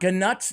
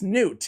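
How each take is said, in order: First: The name starts with a sounded G before 'nut'. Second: The name sounds like 'newt', no G sound. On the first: The speaker calls it wrong. "not ganut" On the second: The speaker calls it right. "It's Newt"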